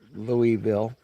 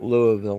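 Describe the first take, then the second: First: It is pronounced the way outsiders usually say it. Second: It is pronounced the way Kentucky locals say it. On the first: The speaker calls it wrong. "not Louisville" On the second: The speaker calls it right. "I call it Louisville"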